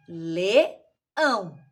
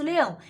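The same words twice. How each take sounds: First: "leão" in two separated pieces, le, ão; syllable by syllable. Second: Said in the usual way. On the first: Shown as a demonstration. Teacher counting the pieces of a word, "leão" split le-ão. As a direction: break "leão" into le... ão, lower-pitched. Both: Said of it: "contar quantos pedaços tem um leão".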